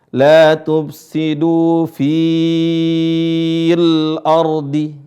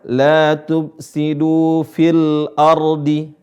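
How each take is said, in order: First: The vowel in 'fi' is drawn out long. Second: The vowel in 'fi' is kept short. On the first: The speaker calls it wrong. "Bukan dibaca apa?" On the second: The speaker calls it right. "Ya-nya gugur, dibaca"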